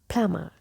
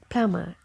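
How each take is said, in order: First: The b sound is left silent. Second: The same.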